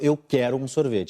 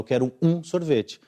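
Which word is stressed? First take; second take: quero; um. First: The stress is on quero. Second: The stress is on um.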